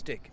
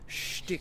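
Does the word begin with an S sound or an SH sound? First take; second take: S sound; SH sound. First: The word begins with a plain S sound. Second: The word begins with an SH sound. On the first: The speaker calls it wrong. "It's not pronounced stick" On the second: The speaker calls it right. "it's pronounced shtick"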